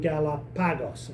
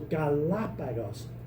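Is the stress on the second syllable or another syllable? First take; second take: another syllable; second syllable. First: The stress falls on another syllable. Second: The stress falls on the second syllable. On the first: The speaker calls it wrong. "rather than Galapagos or something like that" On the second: The speaker calls it right. "which syllable gets the accent"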